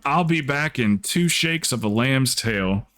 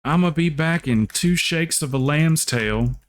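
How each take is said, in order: First: A light hint of a country drawl, slow; quoting the old saying lightly, slowed down; slow Southern saying. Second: Higher, slow Southern drawl; country teacher impression. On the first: Speaker first quoting her teacher's saying, a mild slow Southern lilt. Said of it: "She used to say that all the time". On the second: Imitating her country teacher's favorite saying, higher Southern drawl. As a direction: put on the schoolteacher's Southern voice. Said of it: "used to have this real country teacher".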